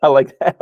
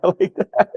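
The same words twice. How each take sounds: First: Said in the usual way. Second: Said through a real laugh, higher. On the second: Real, not acted. Cohost enjoys the joke and repeats it laughing. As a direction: let the laugh break into the words.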